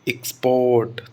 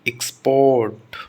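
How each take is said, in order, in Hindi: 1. Stress पहले शब्दांश पर है। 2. स्ट्रेस पहले शब्दांश पर है।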